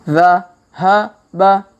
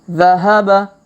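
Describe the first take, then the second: First: The syllables are read slowly and separately. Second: The syllables are read quickly and joined. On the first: "Kita baca pelan-pelan" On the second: "Kalau dipercepat"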